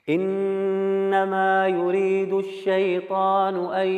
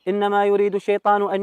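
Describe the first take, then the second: First: It is recited carefully following tajweed pronunciation rules. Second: It is recited plainly without tajweed pronunciation rules. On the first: The speaker calls it right. "يقرأ بتجويد" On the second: The speaker calls it wrong. "من غير إتقان مثلا من غير تجويد"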